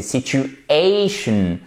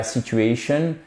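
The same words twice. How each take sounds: First: Very slow "situ-A-tion", long "A"; strong "A" stress. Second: "situation" without a strong "A" in "ation"; wrong stress. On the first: Teacher correcting learners, drawn-out stress on "situation". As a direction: lean hard and long on "ay" in "situation". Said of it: "un son qui est fort". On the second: Teacher showing learners what to avoid, weakly stressed "situation". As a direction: pass over the "A" of "situation" unstressed. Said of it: "c'est pas situation". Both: Shown as a demonstration.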